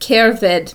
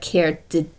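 First: The middle of the word has a 'v' sound. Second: The middle of the word has a 'd' sound. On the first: This is how the word is actually said. "it makes a V sound" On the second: This follows the written spelling. "it's like spelled like cerdded"

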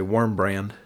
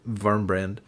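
First: It is said with an American pronunciation. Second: It is said with a German pronunciation.

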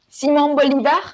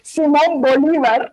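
First: It is said with a French accent. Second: It is said without a French accent.

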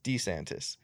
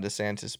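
First: The name is said with an Italian sound. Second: The name is said with a plain American sound. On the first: This is how the bearer says his own name. The speaker calls it wrong. "I don't like how he says his name Italian as fuck" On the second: This is how most people say the name. The speaker calls it right. "everybody typically just says"

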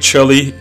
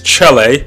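First: Chile is said with an English pronunciation. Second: Chile is said with a Spanish pronunciation. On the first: The speaker calls it wrong. "a lot of people say Chile" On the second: The speaker calls it right. "it's Chile. Okay, you got to say it with the accent"

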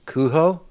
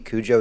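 First: The name has a Spanish-sounding pronunciation. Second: The name has a plain English pronunciation. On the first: The speaker calls it right. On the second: The speaker calls it wrong.

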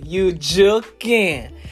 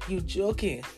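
First: It is said in a happy tone. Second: It is said in a sad tone.

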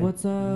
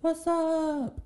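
First: It is said in a lower voice. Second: It is said in a higher voice.

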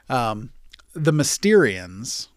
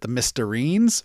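First: The name ends with an '-ians' sound. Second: The name ends with an '-ines' sound. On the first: The speaker calls it right. "I'm so sorry to the Mysterians" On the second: The speaker calls it wrong. "I pronounced it the Mysterines for some reason"

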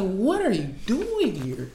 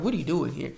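First: It is said with deep, heartfelt exasperation. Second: It is said mildly, without strong feeling.

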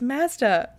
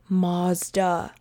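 First: Mazda is said with the local Canadian pronunciation. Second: Mazda is said with the American pronunciation. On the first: The speaker calls it right. "It's Mazda" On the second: The speaker calls it wrong. "I went to visit my cousin in California and the commercial said"

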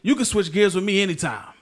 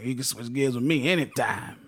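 First: It is said in an ordinary voice. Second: It is said in a creepy grandpa voice.

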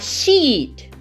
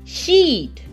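The two takes are said the same way.

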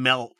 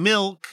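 First: The word is said in a local Utah way. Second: The word is said in a standard way. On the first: The speaker calls it wrong. "you're saying milk" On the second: The speaker calls it right. "You're not saying milk"

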